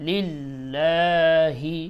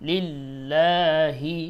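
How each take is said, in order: The two takes are said the same way.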